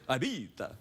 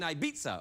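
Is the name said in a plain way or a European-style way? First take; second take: European-style; plain. First: The name is said in a showy European style. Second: The name is said in a plain, ordinary way.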